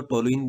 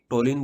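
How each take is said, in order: First: "टोलुइन" in three syllables, to-lu-in; alternative pronunciation. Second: Said in the usual way. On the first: Shown as a demonstration. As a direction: say "टोलुइन" with an extra u before the final in. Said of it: "कुछ लोग इसको टोलुइन भी बोलते हैं". ("टोलुइन" में लु के बाद इन अलग से बोलें) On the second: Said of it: "टोलिन बोल दो, टोलुइन बोल दो".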